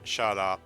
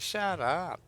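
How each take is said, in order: First: It is said angrily, meaning it. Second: It is said playfully, in disbelief.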